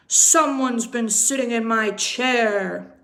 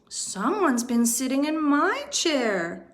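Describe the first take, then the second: First: Loud indignant exclamation; louder, stressing Someone's; papa bear exclaiming. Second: A lightly voiced mama bear cry; a hint of higher mama bear, stressing my. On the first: Acted. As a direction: boom it out like an outraged big bear. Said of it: "exclaimed Papa Bear". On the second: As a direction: echo him as a fretful mother bear. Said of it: "cried Mama Bear".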